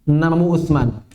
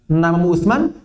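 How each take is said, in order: First: It is said with statement intonation. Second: It is said with question intonation. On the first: It states the person's name. "Bertanya bukan?" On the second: It asks whether that is the person's name. "kita mau bertanya"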